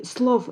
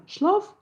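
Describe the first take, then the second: First: "слов" opening on a hissing s; northern s in слов. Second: "шлов" opening on sh. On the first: Linguist contrasts dialect forms, "слов" with s. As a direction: say "слов" with s instead of sh. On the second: Linguist contrasts dialect forms, "шлов" with sh. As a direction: say "шлов" with sh instead of s. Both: Shown as a demonstration. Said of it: "слов вместо шлов".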